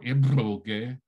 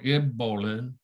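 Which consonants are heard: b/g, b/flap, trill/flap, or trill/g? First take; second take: trill/g; b/flap. First: It has a lip trill and a plain g. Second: It has a plain b and a lateral flap.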